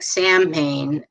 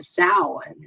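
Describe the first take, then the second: First: It is read as spelled, like 'sam-hain'. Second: It is said like 'sow-in'. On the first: The speaker calls it wrong. "which looks like Samhain" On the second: The speaker calls it right. "with the pronunciation of Samhain"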